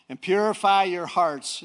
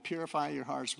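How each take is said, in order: First: "purify" pushed out high and loud; slow, loud stress on "purify"; emphatic scripture. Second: Said in the usual way. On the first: Real, not acted. Verse declaimed, then repeated plainly.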